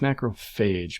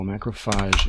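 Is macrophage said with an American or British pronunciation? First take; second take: American; British. First: The word is said with an American pronunciation. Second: The word is said with a British pronunciation. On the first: The speaker calls it right. "it's macrophage, people" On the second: The speaker calls it wrong. "is a British pronunciation"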